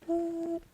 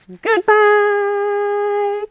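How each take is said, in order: First: It is said quietly. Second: It is said loudly.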